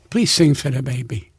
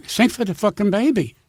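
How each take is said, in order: First: Low, contained request; restrained, low-pitched urging; retold polite plea. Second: Exasperated acted command; retold impatient order. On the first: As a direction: ask politely, keeping the voice down. Wise guy asks, then insists. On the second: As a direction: lose patience and order it. Same request turns into an order.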